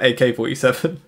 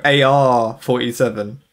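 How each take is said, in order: First: Said in the usual way. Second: "A R forty-seven" with the letters spelt out and drawn; foreign naming. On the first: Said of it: "here in the U K we just call it". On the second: Shown as a demonstration. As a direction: spell out "A R" slowly before forty-seven. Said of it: "in certain countries they go".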